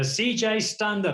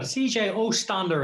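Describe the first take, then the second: First: Said in the usual way. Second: "Ostander" said with an extra O sound in front of Stander; O'Driscoll's nickname. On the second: Retold or imitated. Host quoting O'Driscoll's nickname for his guest, "Ostander" with a lightly Irish O. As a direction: add an O to the start, "Ostander", the way O'Driscoll does it. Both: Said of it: "as Brian O'Driscoll calls him".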